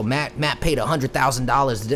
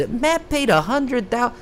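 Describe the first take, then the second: First: Said in the usual way. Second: Much higher, slow, put-on voice; mocking repeat. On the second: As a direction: parrot the rumor back in a silly mocking voice.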